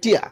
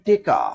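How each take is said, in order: First: Said tia, with no middle consonant. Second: Said teka, with e and k. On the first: Noakhali regional form. "Noakhali কয় টিয়া" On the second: Mymensingh regional form. "কোন অঞ্চলে কয় টেকা ... ময়মনসিং"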